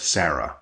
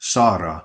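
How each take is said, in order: First: The name is said with an American accent. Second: The name is said with a Russian accent. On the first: "the American version of Sarah" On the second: "They'll call you Sara"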